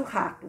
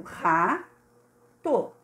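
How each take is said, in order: First: Said in the usual way. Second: "Rato" split by a long pause; syllable by syllable. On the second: Shown as a demonstration. Teacher checking there are two syllables, split "Rato". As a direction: say each syllable of "Rato" alone. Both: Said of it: "duas sílabas, a gente verificou".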